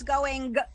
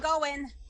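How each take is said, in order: First: The final g sound is fully pronounced. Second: The final g sound is dropped. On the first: The speaker calls it right. "It really isn't the word going; it's going" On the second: The speaker calls it wrong. "we are lazy"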